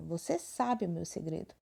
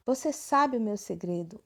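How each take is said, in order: First: "Você sabe o meu segredo." said as a flat, falling statement; plain statement. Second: "Você sabe o meu segredo?" said as a surprised, admiring exclamation. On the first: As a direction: state it calmly, no question in it. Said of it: "frase declarativa afirmativa". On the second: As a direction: exclaim it with a little wonder. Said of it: "um ponto de exclamação no final". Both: Shown as a demonstration.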